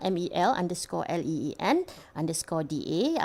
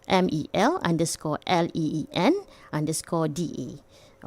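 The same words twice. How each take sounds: First: It is said in her normal speaking voice. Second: It is said in a radio DJ voice.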